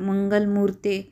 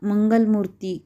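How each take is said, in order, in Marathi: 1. हा शब्द 'ay' स्वराने संपतो. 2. हा शब्द 'ee' स्वराने संपतो. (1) "मंगलमूर्ते असा करावा" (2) "मंगलमूर्ती करू नये"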